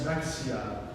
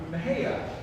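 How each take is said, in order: First: The name is pronounced as spelled, with an x. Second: The name is pronounced the local way. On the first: The speaker is just passing through. "you might read it as" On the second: The speaker is from the town. "the local pronunciation is something else entirely"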